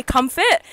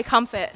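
First: Aussie KUM-fət for comfort. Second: Drawn out Aussie comfort; Aussie comfort, slower. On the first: Telling a friend how she says it, Aussie comfort. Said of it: "me and Hazel were talking about it, how I say". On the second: Showing her own way of saying it, slow Aussie comfort. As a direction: comfort said slowly, KUM-fət, no r, falling. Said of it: "and she says comfort. And I say". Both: Shown as a demonstration.

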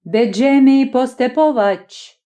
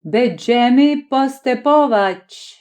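First: Slow, held-back Polish call; a restrained Polish cheer; eager restrained call. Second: Slow, solemn Polish pronouncement; a ceremonious Polish proclamation said slowly. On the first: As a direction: call it out keenly in Polish but hold it in. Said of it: "завзято, але стримано гукав". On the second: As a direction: declare it grandly in Polish, slowly. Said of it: "Він урочисто промовив". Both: A narrator's reading.

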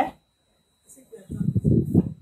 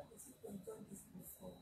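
First: Repeated higher and slower, louder. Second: Almost silent, voiceless; muttered under breath. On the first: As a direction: say it again so they hear. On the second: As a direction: mumble it to yourself. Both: Real, not acted.

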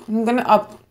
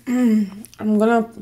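First: Said in the usual way. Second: Slow, careful "I'm gonna" after clearing throat; drawn-out restart to correct herself. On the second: Real, not acted. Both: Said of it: "up all the type of videos".

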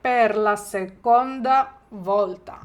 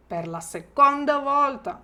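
First: Slow, louder, stress on seconda; slow model phrase. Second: Said in the usual way. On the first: Shown as a demonstration. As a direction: drill it slowly for repeating. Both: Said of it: "я вам допоможу".

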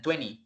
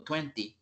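First: "twenty" said as twenny, no second t; quick casual form. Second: "twenty" said as twen-tee with a clear second t; full careful form. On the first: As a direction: let the t after n vanish in "twenty". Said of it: "cuando lo dicen rápido es". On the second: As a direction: articulate the t after n in "twenty". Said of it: "para no estar diciendo". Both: Shown as a demonstration.

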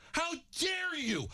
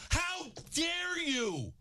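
First: High, slow outraged shout; furious shout. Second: Very slow, high, stretched yell; drawn-out furious shout. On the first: Host shouting down the lineman who insulted fans, furious shout. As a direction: hurl it at him. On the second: Host repeating his outrage at the lineman, slow stretched yell. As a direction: drag every word out in outrage. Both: Real, not acted. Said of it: "that angers me".

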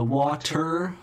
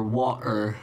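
First: Said in the usual way. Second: "water" with a glottal stop for the T. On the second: Shown as a demonstration. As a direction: drop the T in "water" into a catch in the throat. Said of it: "glottal T, you know, do you say".

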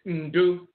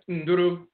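First: "Ndu" as hummed n, then DOO; Akwamu pronunciation. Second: "Nduru" as hummed n, then DOO-roo; Asante pronunciation. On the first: Lecturer giving the Akwamu word, "Ndu" as n-DOO. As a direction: cut "Ndu" to one oo syllable. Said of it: "in the Akwamu dialect". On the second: Lecturer giving the Asante word, "Nduru" as n-DOO-roo. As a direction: give "Nduru" both oo syllables. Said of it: "In the Asante dialect". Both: Shown as a demonstration.

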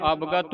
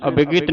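First: ਅਵਗਤ as ab-gat; joined word. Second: ਅਵਗਤ as a-bi-git; wrong added i. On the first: Teacher models correct reading, ਅਵਗਤ as ab-gat. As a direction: keep short a sounds in ਅਵਗਤ, all together. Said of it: "ਇਕੱਠਾ ਹੀ ਉਚਾਰਨ ਕਰਨਾ". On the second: Teacher shows what to avoid, ਅਵਗਤ as a-bi-git. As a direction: slip i sounds into ਅਵਗਤ. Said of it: "ਅਵਗਤ ਨਹੀਂ ਬੋਲਣਾ". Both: Shown as a demonstration.

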